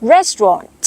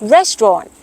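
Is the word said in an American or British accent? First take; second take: British; British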